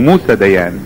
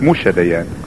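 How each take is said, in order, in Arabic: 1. صوت الحرف الأوسط في الاسم هو s. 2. صوت الحرف الأوسط في الاسم هو sh. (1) "موسى هو اسمه موسى ديان" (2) "اليهود ينطقوا السين شين"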